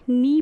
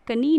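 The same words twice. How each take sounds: First: "नी" starting straight on the N; one syllable "नी", no K at all; silent K. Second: "कनी" with an audible K before the N; two syllables, ka-NEE, in "कनी"; K wrongly sounded. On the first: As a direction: drop the K, stretch "नी" out loud and clear. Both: Shown as a demonstration. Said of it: "कनी ना पढ़ के नी पढ़ेंगे".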